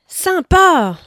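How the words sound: It is said with exaggerated, overflowing enthusiasm. The speaker is wide open and delighted. "avec ses trois points d'exclamation. La porte est grande ouverte"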